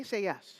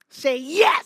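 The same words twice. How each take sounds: First: Said in the usual way. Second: Much louder, rising "yes", pulling an answer from the crowd; loud crowd call. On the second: Shown as a demonstration. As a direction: shout "Say yes" up at the audience.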